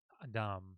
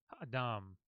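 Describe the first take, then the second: The two takes are said the same way.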